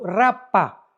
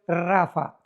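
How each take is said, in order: First: The middle consonant is a p sound. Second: The middle consonant is an f sound. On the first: The speaker calls it wrong. "R de Raúl, A de Armando, P de Pedro, H intermedia" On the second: The speaker calls it right. "pero se pronuncia en el hebreo Rafa"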